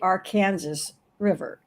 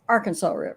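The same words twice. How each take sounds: First: It is said the Kansas local way. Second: It is said the Arkansas local way. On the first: The speaker is in Kansas. "you are in Kansas, it's it's the Arkansas River" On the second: The speaker is in Arkansas. "if you're in Arkansas, it's Arkansas River"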